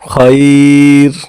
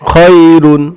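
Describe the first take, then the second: First: The word ends on r, the ending dropped. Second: The word ends with the full -un ending. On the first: The reader stops at this word. "যখন আমরা এই জায়গায় থামবো তখন হবে খয়র" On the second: The reading continues without stopping. "র দুই পেশ রুন"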